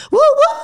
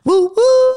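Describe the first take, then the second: First: High squealing woo woo; train whistle hoot. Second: High loud woo woo hoot; train whistle hoot. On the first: Real, not acted. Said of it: "That woo woo went way too high". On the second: Shown as a demonstration. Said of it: "That's my normal woo woo".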